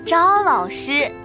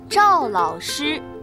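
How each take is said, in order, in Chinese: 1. “赵”字不读降调。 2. “赵”字读降调。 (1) "不是赵老师" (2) "我是赵老师，第四声"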